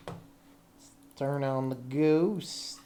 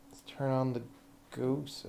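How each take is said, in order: First: Slow drawn-out announcement. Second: Said in the usual way. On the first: Pretend. Repeats the line slowly.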